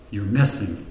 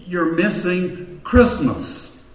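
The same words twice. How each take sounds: First: Said in the usual way. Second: "missing" drawn out slowly, higher and weighted; stress on missing. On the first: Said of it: "quieter repeat of the point". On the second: Shown as a demonstration. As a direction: lean hard on "missing" in "You're missing Christmas". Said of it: "preacher's emphatic point".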